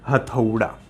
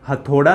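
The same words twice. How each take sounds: First: The second vowel is an 'au' diphthong sound. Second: The second vowel is a plain 'o' sound. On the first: The speaker calls it right. "औ आ जाएगा इसमें, न कि ओ आएगा, और आपका शुद्ध क्या हो जाएगा" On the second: The speaker calls it wrong. "हथौड़ा आप गलत बोलते हो, हथौड़ा नहीं होता"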